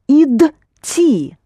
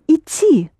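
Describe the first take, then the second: First: The word is split into separate syllables. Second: The word is said smoothly as one unit. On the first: "I'll pronounce it syllable by syllable" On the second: "So you say идти"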